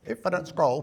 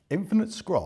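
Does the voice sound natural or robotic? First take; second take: robotic; natural. First: It is said in a put-on robotic voice. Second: It is said in a natural speaking voice.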